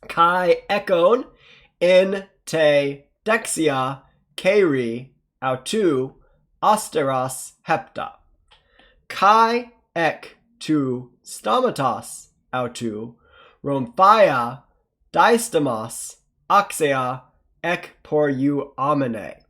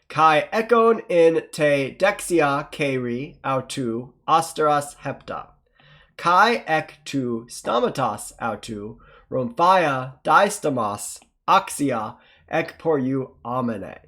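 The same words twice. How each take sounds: First: It is read slowly. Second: It is read faster.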